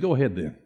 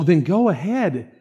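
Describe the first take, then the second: First: It sounds like a warning with a threat. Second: It sounds like easy, genuine permission. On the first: Do it and you will be punished. "It was the tone my dad used to say" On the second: You are truly allowed to do it. "It wasn't"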